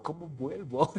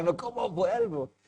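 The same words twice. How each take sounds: First: Said in the usual way. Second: Imitando su propia angustia, entre risas; preocupación exagerada entre risas. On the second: Retold or imitated. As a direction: repite la pregunta con susto fingido y risa. (preocupación fingida, medio riendo) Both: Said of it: "Pero estaba preocupado".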